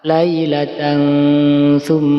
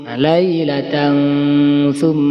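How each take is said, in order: The two takes are said the same way.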